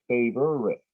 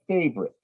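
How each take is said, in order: First: The word is said with three syllables. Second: The word is said with two syllables. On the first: "they'll actually put the extra syllable into it" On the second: "you've heard them say favorite"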